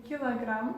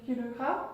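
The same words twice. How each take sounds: First: "kilogramme" as kee-la-GRAM; Russian pronunciation. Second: Said in the usual way. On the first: Shown as a demonstration. Teacher showing the near-identical word, Russian pronunciation. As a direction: say "kilogramme" the Russian way, with an a in the second syllable. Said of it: "on dit". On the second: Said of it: "on dit presque pareil".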